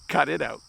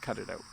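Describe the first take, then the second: First: It is yelled loudly. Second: It is said quietly and calmly. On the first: The speaker is really annoyed. "or you would yell" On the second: The speaker wants it to stop politely. "In a calm voice"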